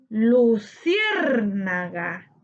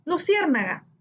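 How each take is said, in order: First: "Luciérnaga" very slow, long punched CIÉR; stress on CIÉR. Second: Said in the usual way. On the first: Shown as a demonstration. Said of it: "su sílaba tónica en cier". ("Luciérnaga" muy lento, alargando CIÉR) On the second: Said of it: "separar por sílaba".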